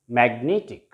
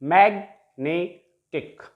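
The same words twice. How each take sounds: First: Said in the usual way. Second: Magnetic slowly split as mag, ne, tic; magnetic, slow with a gap after each syllable. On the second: Shown as a demonstration. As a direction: break magnetic into three separate syllables. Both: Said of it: "trisyllabic word".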